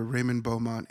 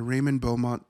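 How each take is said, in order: First: "Beaumont" said French style, nasal end, no t; corrected pronunciation. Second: "Beaumont" with the final t sounded, English style; first pronunciation. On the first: Correcting himself on the character's name: French "Beaumont". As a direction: say "Beaumont" as boh-mon, dropping the t. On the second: Recapping the film, naming Englund's character: English "Beaumont" with the t. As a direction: say "Beaumont" as boh-mont with a clear t. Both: Shown as a demonstration.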